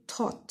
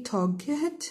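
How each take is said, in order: First: Tot, G H silent; correct pronunciation. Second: Toget with the G H sounded; wrong pronunciation. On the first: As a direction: say tot short and clean. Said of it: "we say tot". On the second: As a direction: say toget, voicing the G. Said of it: "We don't say toget". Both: Shown as a demonstration.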